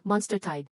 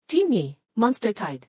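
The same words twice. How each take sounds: First: Said in the usual way. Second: Slow, loud, urgent call-out; an alarm read out to the whole team; urgent alert. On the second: Acted. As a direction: announce the alarm slowly and loudly.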